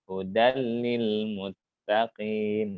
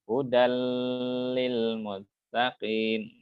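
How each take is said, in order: First: The doubled L sound passes quickly, not held. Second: The doubled L sound is held long. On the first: The speaker calls it right. "nah gitu" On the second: The speaker calls it wrong. "berarti kita tahan nih"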